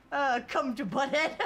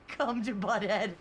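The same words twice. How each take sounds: First: Lightly voiced Butthead, laughing through it; a loose Butthead impression. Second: A hint of Butthead; a mild Butthead impression. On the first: Streamer reading a chat message as Butthead. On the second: Streamer reading a chat line in his best Butthead voice. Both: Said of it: "in my best Butthead voice".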